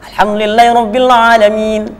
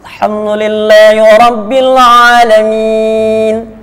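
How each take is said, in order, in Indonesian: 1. Bacaannya dibaca dengan tempo sangat cepat. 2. Bacaannya dibaca dengan tempo sedang, lebih lambat. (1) "Percepatan yang paling cepat di situ" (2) "Tadwir itu begini"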